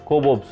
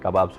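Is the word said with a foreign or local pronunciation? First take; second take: foreign; local. First: It is said with a foreign-style pronunciation. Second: It is said with a local Telugu pronunciation. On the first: This is how people elsewhere say it. "వాళ్ళ pronunciation మీకు తెలుసు కదా ఏ విధంగా ఉందో" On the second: This is how it is said in our language. "మన మన భాషలో"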